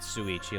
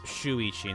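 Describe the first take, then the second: First: The name begins with an 's' sound. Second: The name begins with a 'sh' sound. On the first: The speaker calls it wrong. "not Suichi" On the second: The speaker calls it right. "It's Shuichi"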